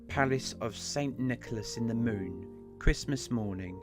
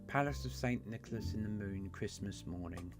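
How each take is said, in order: First: It is read in his ordinary own voice. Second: It is read in a put-on Santa Claus voice.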